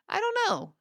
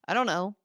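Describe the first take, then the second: First: It is said in a light, positive tone. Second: It is said in a flat monotone. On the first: The speaker seems polite rather than cold. The speaker calls it right. "That little change in tone, keeping it light" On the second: The speaker seems cold and shut down. The speaker calls it wrong. "a monotone response of"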